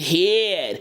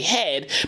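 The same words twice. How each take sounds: First: The vowel is opened up into a gliding diphthong. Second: The vowel is a short plain single vowel. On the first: This imitates the singer's styled delivery. "she said head ... she made a diphthong in the word head" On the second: This is the everyday way to say it. "we say head"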